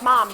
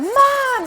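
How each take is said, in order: First: It is a routine, repetitive call. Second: It is screamed as if hurt.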